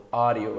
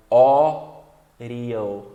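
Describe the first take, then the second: First: Said in the usual way. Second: Audio split up with a loud stretched first vowel; tapped D, slowed. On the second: Shown as a demonstration. Teacher breaks down an example, audio loud and drawn out. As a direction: boom out the start of audio, then tap the D. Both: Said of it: "alguns exemplos aqui".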